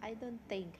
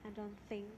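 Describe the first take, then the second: Both takes have the same delivery.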